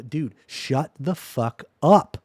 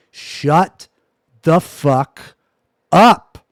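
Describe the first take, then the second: First: Said in the usual way. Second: Each word split by a pause, louder and louder. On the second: Real, not acted. Streamer repeating his order to chat, loud and word by word. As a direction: hammer out every word, the last one highest.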